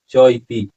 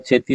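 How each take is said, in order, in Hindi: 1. दोनों शब्द अलग-अलग बोले जाते हैं। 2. दोनों शब्द एक साथ जुड़कर एक शब्द की तरह बोले जाते हैं। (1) "होगा च इति" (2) "चेती नहीं होगा"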